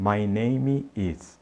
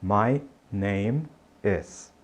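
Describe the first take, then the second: First: Name ends with an added final vowel sound. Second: Name ends cleanly on the M sound. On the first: The speaker calls it wrong. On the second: The speaker calls it right.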